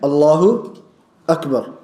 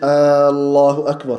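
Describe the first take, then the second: First: The opening vowel is said short. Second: The opening vowel is stretched long. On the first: It states that God is the greatest. The speaker calls it right. "which is saying Allahu Akbar" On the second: It asks whether God is the greatest. The speaker calls it wrong. "He just stretched the alif in the beginning"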